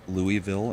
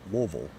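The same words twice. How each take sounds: First: Louisville is said the common outsider way. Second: Louisville is said the local native way. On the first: The speaker calls it wrong. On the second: The speaker calls it right.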